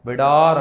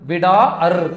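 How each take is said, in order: First: The second vowel is one single drawn-out sound. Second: The second vowel is split into two separate sounds. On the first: The speaker calls it right. "விடார் அப்படின்னு படிக்கணும்" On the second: The speaker calls it wrong. "போய் சொல்லக்கூடாது"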